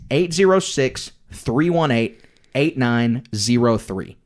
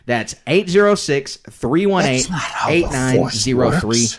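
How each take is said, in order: First: It is said in his plain speaking voice. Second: It is said in an old-school commercial-announcer voice.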